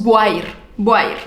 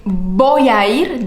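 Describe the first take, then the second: First: "voy a ir" blended into one sound, lower; fused vowels. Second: Slow, "voy a ir" with each vowel separate; slow full form. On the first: Teacher showing vowel fusion. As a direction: glide "voy a ir" together without pauses. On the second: Teacher showing the unfused form. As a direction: stretch "voy a ir" out word by word. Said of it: "En lugar de decir". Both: Shown as a demonstration.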